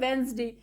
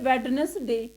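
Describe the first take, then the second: First: The d sound is dropped, with two syllables. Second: The d sound is pronounced, with three syllables. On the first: The speaker calls it right. "ये वेडनेसडे नहीं होता, ये होता है वेंसडे" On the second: The speaker calls it wrong. "हम कई बार क्या पढ़ते हैं"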